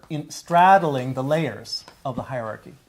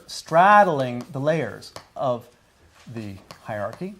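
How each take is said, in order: First: Said in the usual way. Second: Slow teacher emphasis on straddling; slow deliberate emphasis. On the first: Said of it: "teacher repeats key phrase". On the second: Shown as a demonstration. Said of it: "teacher repeats key phrase slowly".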